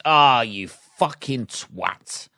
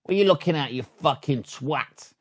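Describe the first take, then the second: First: Slow, drawn-out mock insult at the windscreen. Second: High sharp start, dropping quiet at the end; side window insult. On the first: Driver at the windscreen, slow drawn-out mock insult. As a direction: stretch it out, mock disgust. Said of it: "front windscreen on a car is". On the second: Driver glaring out the side window, snapped mock insult. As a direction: snap the question, then sneer the insult. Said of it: "And then the side window is". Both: Shown as a demonstration.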